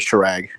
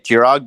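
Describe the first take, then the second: First: The name begins with an 'sh' sound. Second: The name begins with a 'j' sound. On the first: This is how outsiders say it. "people say" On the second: This is how the family says it. "my parents say"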